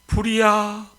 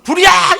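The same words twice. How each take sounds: First: It is said quietly and weakly. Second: It is said loudly as a shout.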